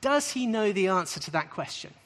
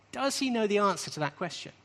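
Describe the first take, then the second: First: Does lifted and pressed at the start; stress on does. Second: He lifted and pressed, rising tune; stress on he. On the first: Teacher posing the question to the class, stress on does. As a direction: lean on does to pose the question. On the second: Teacher repeating the question to the class, stress on he. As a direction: put the weight on he, then rise. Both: Shown as a demonstration. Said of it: "as Jesus says that".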